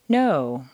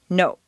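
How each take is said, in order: First: The vowel is stretched over two pitch steps. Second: The vowel is clipped short, Spanish or Japanese style.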